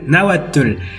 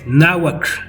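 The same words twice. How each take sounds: First: The ending has an added vowel, like tul. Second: The ending is a tight tl with no vowel. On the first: The speaker calls it wrong. "lo siguen pronunciando fatal, que es tul" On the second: The speaker calls it right. "y no, es náhuatl"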